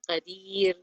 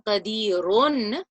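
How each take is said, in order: First: The word ends on a bare, light r. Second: The word ends with a voweled -run ending. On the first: The speaker calls it right. "I change the do pesh into a sukoon... the ra into a light way" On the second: The speaker calls it wrong. "instead of saying qadirun, that would be incorrect"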